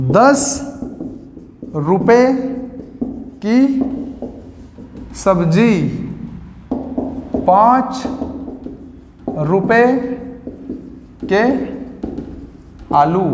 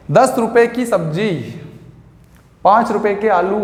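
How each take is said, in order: First: Each word spoken alone with long pauses; slow dictation. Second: Said in the usual way. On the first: Shown as a demonstration. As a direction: dictate it word by word for students to write. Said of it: "teacher dictates word by word". (शब्द-शब्द रुककर धीमी बोलकर लिखवाना) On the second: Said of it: "teacher gives example phrases".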